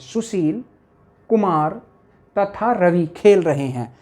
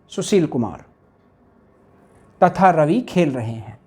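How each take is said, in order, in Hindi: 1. पहले शब्द के बाद एक छोटा सा विराम है। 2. पहले दो शब्द बिना विराम के एक साथ बोले जाते हैं। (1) "जब हम बोलेंगे सुशील तो थोड़ा ठहरेंगे इसमें" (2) "अगर हम इस कोमा को हटा दें... ऐसा लग रहा है जैसे एक ही नाम हो"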